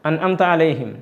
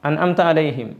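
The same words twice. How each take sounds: The two takes are said the same way.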